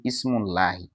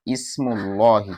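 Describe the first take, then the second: First: Ismullahi said with the wrong lah, softer; wrong pronunciation. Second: Ismullahi with dhamma, lahi said plainly; correct pronunciation. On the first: Teacher showing the mistaken Ismullahi. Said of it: "You cannot say Ismullahi". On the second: Teacher showing how the dhamma changes lahi. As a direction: say Ismullahi carefully. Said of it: "Like when you say Ismullahi". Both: Shown as a demonstration.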